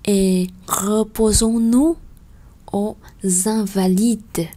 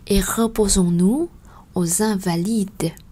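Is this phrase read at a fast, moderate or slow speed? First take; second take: slow; moderate. First: The phrase is read at a slow pace. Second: The phrase is read at a moderate pace.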